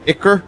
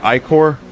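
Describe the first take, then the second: First: The first syllable sounds like 'ick'. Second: The first syllable does not sound like 'ick'. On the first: "Like icky?" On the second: "I've always said Ichor"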